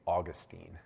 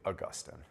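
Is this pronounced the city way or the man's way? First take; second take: city; man. First: It is pronounced the usual way for the city. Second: It is pronounced the usual way for the man. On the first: It refers to the city in Florida. "This is usually the, the conventional pronunciation" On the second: It refers to the man himself. "If we're talking about the man, it's usually Augustine"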